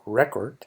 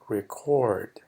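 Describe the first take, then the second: First: The stress is on the first syllable. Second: The stress is on the second syllable. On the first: It names a record or register. "que es el registro" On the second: It means to register something. "el acento más al final"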